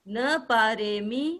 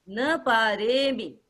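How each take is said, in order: The two takes are said the same way.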